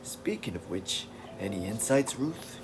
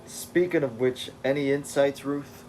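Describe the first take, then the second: First: Beast. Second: Said in the usual way. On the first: Acted. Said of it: "So he's always like". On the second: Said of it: "Oh, that's Beast".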